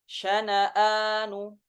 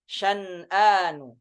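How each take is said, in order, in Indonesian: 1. Huruf n pertama diikuti vokal. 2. Huruf n pertama mati, tanpa vokal. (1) "di riwayah Hafs itu syana'anu" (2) "dengan mensukunkan nun yang per pertama"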